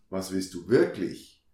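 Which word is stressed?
wirklich. The stress is on wirklich.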